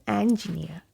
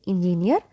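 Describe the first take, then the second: First: "engineer" as en-ji-NEE-uh; correct engineer. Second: "engineer" as in-ji-neer; mispronounced engineer. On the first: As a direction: start "engineer" with "en", drop the R. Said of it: "say engineer". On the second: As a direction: put "in" at the start of "engineer". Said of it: "So do not say engineer". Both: Shown as a demonstration.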